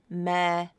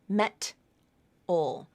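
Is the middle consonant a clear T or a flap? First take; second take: flap; clear T. First: A soft flap starts the second syllable. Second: A clear T ends the first syllable. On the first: The speaker calls it right. "it sounds like me-dol" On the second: The speaker calls it wrong. "that T sound possibly at the end of your first syllable"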